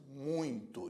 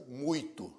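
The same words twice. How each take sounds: First: Nasalized "ui" in muito; muito with nasal diphthong. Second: Oral "ui" in muito; muito without nasalization. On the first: Teacher showing students how it is pronounced, nasal muito. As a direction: let muito ring through the nose. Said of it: "você pronuncia". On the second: Teacher showing students how it isn't pronounced, denasalized muito. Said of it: "veja que você não pronuncia". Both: Shown as a demonstration.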